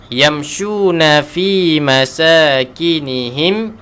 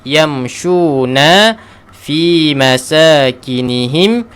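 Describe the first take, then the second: Both takes have the same delivery.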